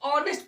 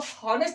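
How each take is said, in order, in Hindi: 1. शब्द सीधे एक स्वर ध्वनि से शुरू होता है। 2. शब्द की शुरुआत हल्की सांस वाली h ध्वनि से होती है। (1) "ऑनेस्ट पढ़ते हैं" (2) "यहाँ पे इसको हॉनेस्ट नहीं पढ़ते हैं"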